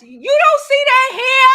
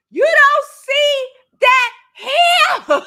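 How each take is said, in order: First: Louder, higher, slower; outraged disbelief at the mess; exasperated. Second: Higher, louder, very slow, laughing; half-laughing, half-yelling in disbelief; exasperated laugh. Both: Retold or imitated. Scolding about mess left around.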